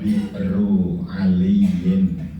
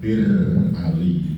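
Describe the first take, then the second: First: The name is said in full, all syllables clear. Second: The name is said quickly, with syllables dropped. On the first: This is the original form of the name. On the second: This is how people commonly say it. "orang umum menyebutnya cepat"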